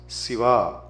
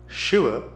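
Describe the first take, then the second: First: It begins with a plain s sound. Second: It begins with a sh sound. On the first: The speaker calls it wrong. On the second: The speaker calls it right.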